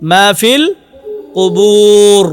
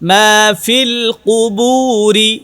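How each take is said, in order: First: The final r has no vowel after it. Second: The final r is followed by an i vowel. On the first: The reader stops at this word. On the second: The reading continues on to the next words.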